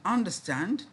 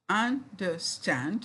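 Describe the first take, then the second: First: Said in the usual way. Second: "understand" slowly in three beats, end rising; syllable by syllable. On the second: Shown as a demonstration. Teacher showing three syllables, syllable by syllable. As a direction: leave gaps between the syllables of "understand". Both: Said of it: "three syllables".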